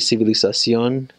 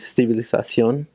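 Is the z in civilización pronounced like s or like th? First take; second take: s; th. First: The z is pronounced as an s sound. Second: The z is pronounced as a th sound. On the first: "in Mexico Spanish, the Z just sounds like an S" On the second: "in Spain, in Castellano, how it's supposed to be said"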